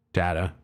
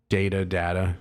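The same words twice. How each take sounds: First: Data said da-ta, short a like in cat. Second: Data said first as day-ta, then as da-ta; weighing day-ta against da-ta; two pronunciations of data. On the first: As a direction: settle on data with a flat short a. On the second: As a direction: try Data both ways, day-ta then da-ta. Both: Shown as a demonstration. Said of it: "I'm going with data".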